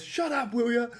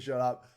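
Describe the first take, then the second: First: High-pitched mock "Shut up", retelling the outburst; imitating a snap. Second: Said in the usual way. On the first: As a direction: snap "Shut" much higher as you imitate him. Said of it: "he goes". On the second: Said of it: "when he said".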